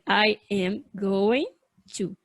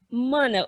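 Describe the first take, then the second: First: Every word is said fully and separately. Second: The phrase is squeezed into one short word. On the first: The speaker calls it wrong. "nunca, jamais, você vai ouvir o nativo pronunciar dessa maneira" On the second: The speaker calls it right. "Simplesmente mana"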